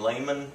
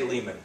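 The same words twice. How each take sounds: First: The name is said closer to German. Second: The name is said harder and quicker. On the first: "which is probably closer to German" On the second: "in America we say Lehman. it sounds harder, quicker"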